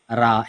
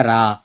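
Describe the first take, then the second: First: Said in the usual way. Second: را said thick and heavy, rounded. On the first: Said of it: "یہ میں normally پڑھ رہا ہوں". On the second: Shown as a demonstration. Teacher showing the heavy را. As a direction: make را full and heavy. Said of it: "یہ موٹا کر کے پڑھتے ہیں".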